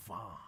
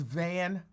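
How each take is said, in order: First: "Vaughn" with a long, open "ah" vowel; pronounced "Vaughn". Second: "Van" with a short "a" as in "man"; pronounced "Van". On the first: Host showing her imagined pronunciation, "Vaughn" with open "ah". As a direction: say "Vaughn" fancily, drawn open like "Vahn". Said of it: "she pronounces it Vaughn". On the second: Host giving the likely real surname, "Van" with short "a". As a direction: say "Van" plainly, rhyming with "can". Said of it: "I think it's actually pronounced Van". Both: Shown as a demonstration.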